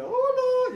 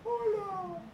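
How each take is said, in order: First: Very high clown hello; clown greeting. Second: High, soft little voice answering; a shy kid echoing back; child's reply. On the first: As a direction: greet the child in a squeaky clown voice. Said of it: "yo iba al niño y decía". (saludo de payaso muy agudo) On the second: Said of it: "y el niño". (respuesta tímida de niño, aguda y suave) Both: Retold or imitated.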